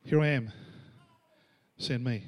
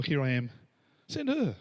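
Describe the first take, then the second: First: Humble volunteering. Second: Joking pass-the-buck. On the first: Preacher voices a willing servant answering God, humble volunteering. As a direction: offer yourself simply, letting it drop. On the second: Preacher jokes about nominating another for God's call, mock volunteering. Joke twist, volunteering someone else. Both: Acted.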